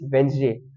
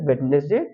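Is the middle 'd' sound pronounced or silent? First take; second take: silent; pronounced. First: The middle d sound is silent. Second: The middle d sound is pronounced. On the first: The speaker calls it right. "The correct pronunciation is Wednesday" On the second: The speaker calls it wrong. "Some people pronounce it Wednesday, but it's not correct"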